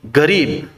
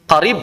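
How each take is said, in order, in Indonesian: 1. Kata qarib dimulai dengan bunyi G. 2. Kata qarib dimulai dengan bunyi Q yang dalam.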